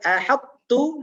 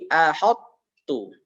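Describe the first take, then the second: First: The h is light with a front vowel. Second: The h is heavy with a rounded vowel. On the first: The speaker calls it right. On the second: The speaker calls it wrong.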